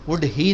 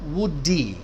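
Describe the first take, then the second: First: The words are separate, with a clear h. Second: The words run together, the h dropped. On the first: The speaker calls it wrong. "नहीं कहोगे।" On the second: The speaker calls it right. "तो ऐसे connect करना है।"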